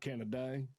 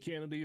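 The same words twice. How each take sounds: First: The name is said with a Southern twang. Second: The name is said in a plain, neutral way. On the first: "You you give it a little twang" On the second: "Do you want me to say Kennedy"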